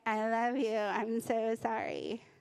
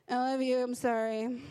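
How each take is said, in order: First: It sounds overly heartfelt and sincere. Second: It sounds grudging and insincere.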